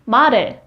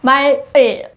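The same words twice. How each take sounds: First: The l sound carries over into the second syllable. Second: The l sound stays at the end of the first syllable. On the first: The speaker calls it right. "you have to move the, the last sound of 말, 을 sound to the ing. So it's like" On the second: The speaker calls it wrong.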